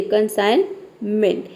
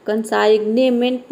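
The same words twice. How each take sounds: First: कंसाइनमेंट with a silent g, said slowly; correct pronunciation. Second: कंसाइग्नेमेंट with the g sounded, the wrong way; wrong pronunciation. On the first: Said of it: "इसको हम बोलते हैं कंसाइनमेंट". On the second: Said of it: "नहीं बोलेंगे". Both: Shown as a demonstration.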